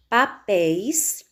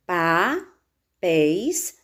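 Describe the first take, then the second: First: Said in the usual way. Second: "papéis" very slow, split as pa... péis; long pause between the syllables of "papéis". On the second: Shown as a demonstration. ("papéis" bem devagar, em duas sílabas separadas) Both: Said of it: "Separando as sílabas".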